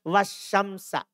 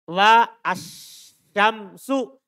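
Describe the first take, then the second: First: The word ends with an 'a' vowel. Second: The word ends with a 'u' vowel. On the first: Ali walks accompanied by the sun. "Kenapa Ana baca wasyamsa? Fathah" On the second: Both Ali and the sun are walking. "Kalau dibaca rofa"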